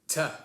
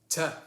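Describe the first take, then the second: No difference in how they are said.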